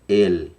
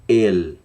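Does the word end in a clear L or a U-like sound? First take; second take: clear L; clear L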